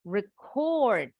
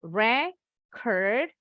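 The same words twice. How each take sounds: First: Record stressed on -CORD, ri-KORD; verb stress. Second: Record stressed on RE-, RE-kord; noun stress. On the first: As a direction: stress the second syllable of record. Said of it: "penekanannya ada di suku kata kedua". (record dengan tekanan di suku kedua) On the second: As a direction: stress the first syllable of Record. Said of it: "stressingnya ada di suku kata pertama". (Record dengan tekanan di suku pertama) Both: Shown as a demonstration.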